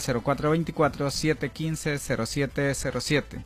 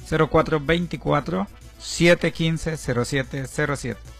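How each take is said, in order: First: The number is said fast. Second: The number is said slowly.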